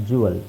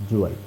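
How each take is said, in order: Both takes have the same delivery.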